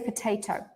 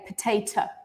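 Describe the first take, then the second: First: The first syllable has a full O vowel. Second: The first syllable has a reduced vowel. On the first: The speaker calls it right. "this O, it's still in the original sound" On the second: The speaker calls it wrong. "I don't say potato"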